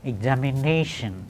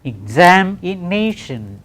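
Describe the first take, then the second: First: Said in the usual way. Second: EXAMINATION slowly divided into five beats; syllable by syllable. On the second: Shown as a demonstration. Teacher counting five syllables, EXAMINATION said slowly syllable by syllable. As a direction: draw out each syllable of EXAMINATION. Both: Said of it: "Just five syllables".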